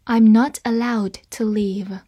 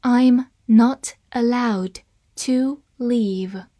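First: Said in the usual way. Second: Very slow, word by word; slow reading. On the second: Shown as a demonstration. Teacher models the passive sentence for learners, slow reading. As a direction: read slowly, separating each word. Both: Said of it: "好，慢慢来读".

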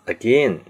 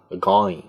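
First: Said in the usual way. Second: London "again", the last vowel widened to "eye"; London accent. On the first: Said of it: "再次，again". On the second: Shown as a demonstration. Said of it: "他们会说呢". (伦敦口音，again尾音读成ai)

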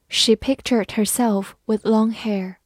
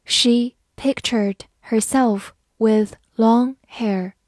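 First: Said in the usual way. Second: Slow, word-by-word model reading; teacher's slow read-along pace. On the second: Shown as a demonstration. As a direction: read it slowly with a gap after each word. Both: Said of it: "慢慢来读".

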